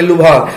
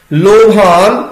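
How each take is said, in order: First: ਲੁਭਾਨ read lubhan with a short u; ਲੁਭਾਨ quickly, u in the first syllable; scripture reading lubhan. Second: ਲੋਭਾਨ said lobhan with an o; ਲੋਭਾਨ with its spoken o sound; ਲੋਭਾਨ as said in daily speech; everyday lobhan. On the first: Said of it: "ਇਹਨੂੰ ਪੜਾਂਗੇ". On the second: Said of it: "ਇਹ ਲੋਭਾਨ ਅਸੀਂ ਬੋਲਦੇ ਹਾਂ". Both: Shown as a demonstration.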